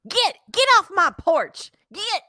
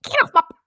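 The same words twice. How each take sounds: First: High, loud, angry shoo; shouting at trespasser. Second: High loud mock yell; shouting at trespasser. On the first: Acted. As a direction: yell them off the porch. Grieving resident shoos pollster away. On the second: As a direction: bark it off the porch. Repeats resident's yell.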